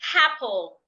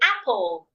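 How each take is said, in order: First: An H sound is added before the first vowel. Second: The word starts directly with the vowel. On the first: The speaker calls it wrong. "do not say apple. Such word does not exist" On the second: The speaker calls it right. "Simply say apple"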